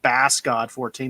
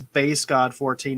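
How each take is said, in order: First: The first word rhymes with pass. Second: The first word rhymes with face. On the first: The speaker calls it wrong. "not Bass God fourteen" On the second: The speaker calls it right. "That is Base God fourteen"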